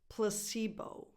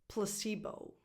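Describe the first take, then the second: Both takes have the same delivery.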